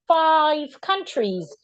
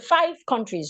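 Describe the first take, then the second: First: The word five is said slowly and fully. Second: The word five is rushed over quickly. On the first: The speaker calls it right. "you need to slow down as well" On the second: The speaker calls it wrong. "Don't rush over the word five"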